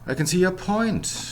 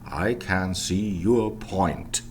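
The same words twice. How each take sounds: First: The small words are reduced to weak vowels. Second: The small words keep their full vowels. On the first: The speaker calls it right. "let's start weakening" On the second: The speaker calls it wrong. "in the full variant"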